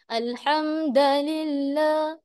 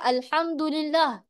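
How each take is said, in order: First: One vowel is swapped for a different vowel. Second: The vowels are pronounced in the standard way. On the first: The speaker calls it wrong. "terbaca alhamdulillah. Dengar memang sedap tapi salah" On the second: The speaker calls it right. "Kita baca alhamdulillah"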